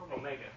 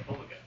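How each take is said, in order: First: Omega stressed on the middle syllable; English pronunciation. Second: Omega stressed on the first syllable; Greek pronunciation. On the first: Man explains English usage, Omega stressed on MAY. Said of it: "But in English, we say". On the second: Man explains Greek speech, Omega stressed up front. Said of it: "you're speaking Greek, that you would say". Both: Shown as a demonstration.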